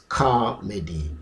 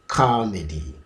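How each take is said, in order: Both takes have the same delivery.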